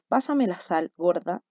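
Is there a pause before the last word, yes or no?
yes. There is a pause before the last word.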